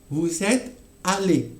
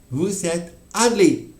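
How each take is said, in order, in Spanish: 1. Hay una pausa corta antes de la última palabra. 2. Hay una pausa corta antes de la última palabra.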